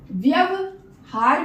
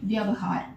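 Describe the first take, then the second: First: The word is broken up with breaks between parts. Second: The word is said smoothly in one flow. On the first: The speaker calls it wrong. "व्यवहार नहीं" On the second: The speaker calls it right. "यहां पे एक साथ बोलना है"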